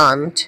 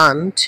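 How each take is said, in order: The two takes are said the same way.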